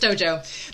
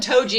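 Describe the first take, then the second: First: The name ends with an 'oh' vowel. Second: The name ends with an 'ee' vowel. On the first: The speaker calls it right. "it's Tojo" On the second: The speaker calls it wrong. "you keep calling him Toji"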